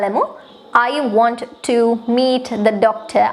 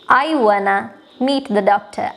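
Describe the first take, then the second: First: The words want to are said in full. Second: The words want to blend into wanna.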